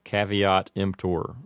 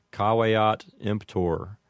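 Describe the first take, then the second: First: Caveat with a flat a and a V; Americanized caveat emptor. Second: Caveat emptor with ah vowels and a W; Latin caveat emptor. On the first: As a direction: say caveat as KAV-ee-aht emptor. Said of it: "an Americanized pronunciation might sound like". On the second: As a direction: say caveat as KAH-weh-aht emptor. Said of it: "a correct Latin pronunciation might sound like". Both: Shown as a demonstration.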